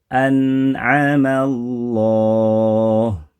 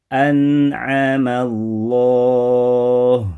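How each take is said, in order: No difference in how they are said.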